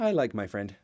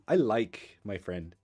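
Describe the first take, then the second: First: It is said in a plain, neutral tone. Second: It is said in a meaningful, suggestive tone. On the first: They are only friends. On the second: There is a romantic crush. "That means probably you have a crush"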